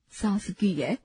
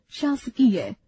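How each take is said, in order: First: शासकीय said as सासकीय with स in place of श; wrong pronunciation. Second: Said in the usual way. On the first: Shown as a demonstration. Teacher showing students the common mistake, deliberately wrong. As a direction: swap the opening श for a plain स. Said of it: "अशुद्ध". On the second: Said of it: "शुद्ध".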